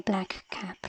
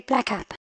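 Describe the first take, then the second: First: Both k sounds are released separately and carefully. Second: The two k sounds merge into one short k. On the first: "unless you are pronouncing it very carefully, you don't actually say black cap" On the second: "as if there were only one C either. You don't say black cap"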